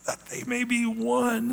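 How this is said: It is said in a pleading, anguished tone. The speaker longs desperately for it. The speaker calls it right. "It's almost like, oh, that they may be one. That like he's just almost in agony"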